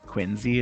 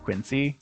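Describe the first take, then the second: First: The middle consonant is a z sound. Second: The middle consonant is an s sound. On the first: It is how the locals say it. The speaker calls it wrong. "that's not right" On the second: It follows the spelling. The speaker calls it right. "But it's a C, not a Z"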